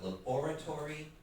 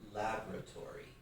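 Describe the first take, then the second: First: It is said with a British stress pattern. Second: It is said with an American stress pattern. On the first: "So in England, it's a laboratory" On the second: "In America, it's a laboratory. But because in America they changed the syllable stress to here"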